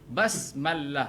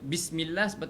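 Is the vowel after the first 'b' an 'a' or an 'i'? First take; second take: a; i. First: The first syllable has the vowel 'a'. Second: The first syllable has the vowel 'i'. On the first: The speaker calls it wrong. "itu lahnul jali" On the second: The speaker calls it right. "sepatut dia baris bawah bi"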